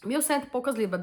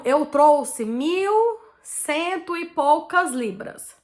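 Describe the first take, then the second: First: Said in the usual way. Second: "mil cento e poucas libras" drawn out very slowly, higher and louder; slow emphatic amount. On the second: Shown as a demonstration.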